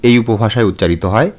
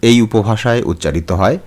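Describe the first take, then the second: No difference in how they are said.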